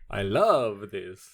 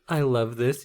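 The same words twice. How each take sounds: First: It is said in a spooky Dracula voice. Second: It is said in a normal speaking voice.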